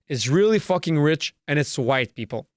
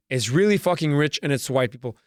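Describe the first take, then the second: No difference in how they are said.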